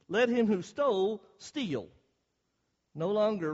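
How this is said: There is a clear pause after steal.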